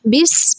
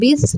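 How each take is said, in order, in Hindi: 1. s की आवाज़ में सीटी जैसी सूं-सूं है। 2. s की आवाज़ सादी है, बिना सीटी के। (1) "सीन सीटी की आवाज़ से अदा होता है। बिस पढ़ेंगे।" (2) "इसको बिस नहीं पढ़ेंगे"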